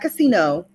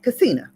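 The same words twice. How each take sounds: First: Casino is said in the usual plain way. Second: Casino is run together as one word. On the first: "it's not casino" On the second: "I said it the way she said it"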